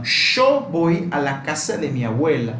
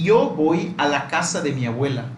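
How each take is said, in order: First: «yo» said as "sho"; pronunciación alternativa de «yo». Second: «yo» said like "ee-oh", with a vowel glide; pronunciación alternativa de «yo». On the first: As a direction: open «yo» with a strong English-style sh sound. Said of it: "Podría también". («yo» pronunciado como «sho») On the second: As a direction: say «yo» as "io", no hard j sound. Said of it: "Ahora, yo podría decir, por ejemplo". («yo» pronunciado como «io») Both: Shown as a demonstration.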